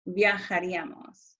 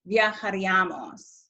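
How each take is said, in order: First: "viajaríamos" with the beat on the í, viajaRÍamos; stress on accented í. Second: "viajaríamos" with the stress wrongly on the a after the í; misplaced stress. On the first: Teacher correcting the pronunciation for students, stress on the í of "viajaríamos". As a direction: lean on the í in "viajaríamos". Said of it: "it's viajaríamos". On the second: Teacher showing students how not to pronounce it, misplaced stress on "viajaríamos". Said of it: "It's not viajaríamos". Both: Shown as a demonstration.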